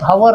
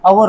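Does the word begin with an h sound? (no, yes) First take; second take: yes; no. First: The word begins with an h sound. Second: The word begins with a vowel sound. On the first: The speaker calls it wrong. "हवर नाही" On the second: The speaker calls it right. "अवर होतो"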